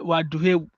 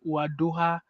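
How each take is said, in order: First: The final vowel is an 'e' sound. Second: The final vowel is an 'a' sound. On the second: This is the general form. "the general one is wadoha"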